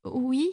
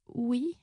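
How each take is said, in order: First: Tiny plaintive voice, sliding upward; thin, very plaintive. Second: Small plaintive voice, rising a little; petite voix plaintive. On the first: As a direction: whimper the word meekly. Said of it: "D'une voix ténue, encore plus plaintive, elle répéta". (voix ténue, très plaintive) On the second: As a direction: answer meekly, as a timid complaint. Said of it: "d'une petite voix plaintive". (petite voix plaintive et timide) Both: A narrator's reading.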